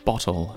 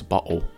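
First: The middle T sound is clearly pronounced. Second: The middle T sound is dropped entirely.

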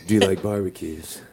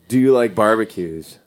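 First: It is said in a put-on seductive voice. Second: It is said in an ordinary speaking voice. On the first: The speaker calls it right. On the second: The speaker calls it wrong.

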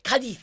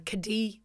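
First: The name is said with an exaggerated Spanish accent. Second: The name is said with an English accent. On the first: "do it in the Spanish accent" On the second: "I'm saying that wrong"

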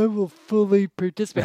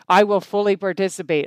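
First: It is said grudgingly, as if annoyed. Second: It is said with conviction, meaning it.

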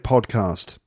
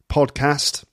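First: It is said with a southern English accent. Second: It is said with a Midlands or northern English accent. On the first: The speaker comes from the South. "And if you're from the South, you'll probably say podcast" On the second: The speaker comes from the Midlands or the North. "If you're from probably the Midlands and the North, you're going to say podcast"

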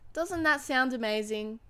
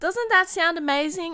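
First: It sounds like an advert, with moderate passion. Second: It is said with strong, heightened passion.

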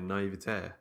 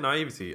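First: The stress falls on the last syllable. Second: The stress falls before the last syllable. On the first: The speaker calls it wrong. "Like they have like the accent on the end" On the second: The speaker calls it right. "We say naivety"

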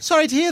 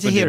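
First: It is said in a sincere, genuine tone. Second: It is said in an uncaring, indifferent tone. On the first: The speaker truly feels sorry. "That one sounds genuine" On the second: The speaker does not really care. "with the voice of someone who doesn't care too much"

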